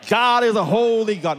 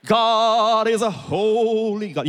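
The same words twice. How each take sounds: First: Solemn holy tone. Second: High, slow, drawn-out pious intoning; solemn holy tone. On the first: Pastor repeating the objector's line, mock-solemn and high. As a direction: intone it like a mock-reverent objector. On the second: Objector challenging the pastor on God's holiness, mock-solemn drawl. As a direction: stretch it out like a sanctimonious objector. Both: Acted. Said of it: "say it in that kind of tone".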